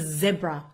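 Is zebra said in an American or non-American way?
non-American. It is said in a non-American way.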